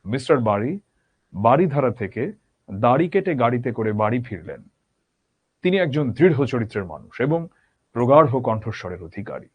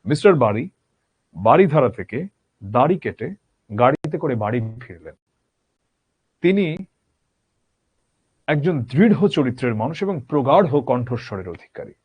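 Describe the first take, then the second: First: বাড়ি দাড়ি গাড়ি with distinct ড় flaps, steady; careful three r sounds again. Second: বাড়ি দাড়ি গাড়ি said with distinct ড় flaps; careful three r sounds. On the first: Teacher repeating the demo for students. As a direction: repeat the tongue twister clearly. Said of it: "আবার বলছি". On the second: Teacher demonstrating the three r sounds to students. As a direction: enunciate each র sound crisply. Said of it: "দেখো তো তোমরা শুনে বুঝতে পারো কিনা". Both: Shown as a demonstration.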